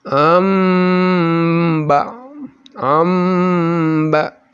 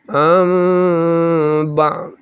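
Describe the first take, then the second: First: Chanted "am ba'" with m fully sealed; wrong iqlab. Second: Chanted "Am ba'" with lips slightly open on the hum; long hummed "Am", lips barely apart, before "ba'"; correct iqlab. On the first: Teacher shows the wrong example, fully closed hummed m. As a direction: press lips fully shut on the long m of "am". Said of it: "Contoh yang salah adalah". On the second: Teacher shows correct way, slightly open hummed m. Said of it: "Jadi sedikit dibuka bibir". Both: Shown as a demonstration.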